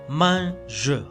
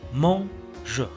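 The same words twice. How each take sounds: First: The first vowel sounds like an open 'a'. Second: The first vowel sounds like an 'o'. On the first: The speaker calls it wrong. "la pronunciación no sería correcto si lo hiciéramos de la siguiente forma" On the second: The speaker calls it right. "cuando está seguido de la N, esta suena O"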